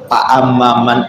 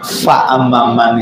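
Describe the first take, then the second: First: The first word begins with a p sound. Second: The first word begins with an f sound. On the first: A speaker who cannot produce the Arabic sound says it this way. The speaker calls it wrong. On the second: The Arabic sound is produced as intended. The speaker calls it right.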